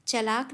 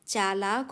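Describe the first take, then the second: First: चलाक said with a short first a; teacher shows the wrong spelling चलाक; wrong short vowel. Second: चालाक with a long aa after च; teacher gives the right form चालाक; correct long vowel. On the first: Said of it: "चालाक होता है". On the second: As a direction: stretch the aa in चालाक. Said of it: "चलाक नहीं होता". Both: Shown as a demonstration.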